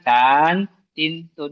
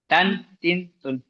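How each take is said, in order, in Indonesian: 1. Sukunya diucapkan panjang. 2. Sukunya diucapkan pendek. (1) "bukan tan, tin, tun, enggak"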